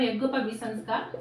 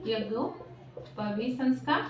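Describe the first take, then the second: First: Said in the usual way. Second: Very slow, drawn-out term with a gap between words; slow dictation. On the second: Real, not acted. Teacher repeating a term for the class, slow dictation. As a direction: spell it out slowly, as if for note-takers.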